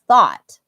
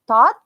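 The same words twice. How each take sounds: First: The word begins with a th sound. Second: The word begins with a plain t sound. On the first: The speaker calls it right. "the correct way to say it is thought" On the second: The speaker calls it wrong. "kalau belum bisa, and you just say thought"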